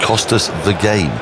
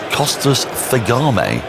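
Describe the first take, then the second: First: The surname is read as English words. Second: The surname is read as one Greek-sounding word. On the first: It is heard as a pun. The speaker calls it right. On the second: It is taken as a real Greek player's name. The speaker calls it wrong. "I'm trying to read it as if it's Greek"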